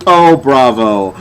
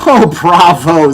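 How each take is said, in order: First: Slow, drawn-out mock praise; slow, drawn-out sarcastic bravo. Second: Slow, louder mock applause; slow, sarcastic bravo with a laugh. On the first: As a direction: drag out the fake praise. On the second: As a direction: praise them with heavy sarcasm.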